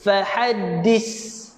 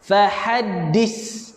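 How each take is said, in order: First: The final consonant is an s-like hiss. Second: The same.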